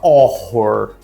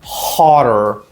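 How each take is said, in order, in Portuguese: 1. A palavra começa sem um som de h audível. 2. A palavra começa com um h audível e aspirado. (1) "Muita gente fala horror, mas não é" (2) "Esse H, ele é gutural"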